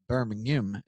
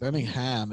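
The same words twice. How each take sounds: First: It is said with a British pronunciation. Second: It is said with an American pronunciation. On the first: The city in England is meant. "Birmingham is in England. So you got to say it right" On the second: The city in Alabama is meant. "Birmingham is in Alabama"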